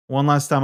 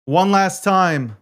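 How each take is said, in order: First: Said in the usual way. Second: One last time, slow and deliberate; slow emphatic. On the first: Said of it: "quick repeat". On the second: Real, not acted. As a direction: drag out each word. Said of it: "repeats phrase slowly".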